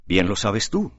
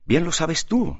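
First: Gently, in an even voice; soft tone. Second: Blurted out. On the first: Alejo answers his brother's challenge in a soft tone. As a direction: say it softly, almost kindly. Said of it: "dijo con tono suave Alejo". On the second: Alejo can no longer contain himself, blurting out. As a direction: burst out higher, unable to hold back. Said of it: "dejó escapar Alejo sin poderse contener". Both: A narrator's reading.

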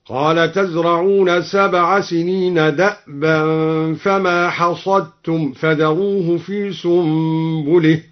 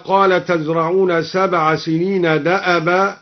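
First: Slow recitation, "دأبا" as da'-ba with vowelless hamza; still hamza. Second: Said in the usual way. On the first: Shown as a demonstration. Reciter shows al-Duri's reading, "دأبا" said da'-ba. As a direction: chant slowly, stopping the hamza in "دأبا". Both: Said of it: "قرأ الدوري بإسكان الهمزة".

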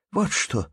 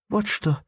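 First: Said in the usual way. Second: High, sharp exclamation; sudden decisive cry. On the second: Acted. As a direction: cut in firmly to take over. Girl takes charge.

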